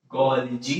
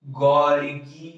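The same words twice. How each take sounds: First: गोल्जी said gol-jee, with a soft j sound in the second syllable; soft j pronunciation. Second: गोल्गी said gol-gee, with a hard g sound in the second syllable; hard g pronunciation. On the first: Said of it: "but basically it is गोल्जी". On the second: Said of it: "गोल्गी भी बोलते हैं कई बच्चे". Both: Shown as a demonstration.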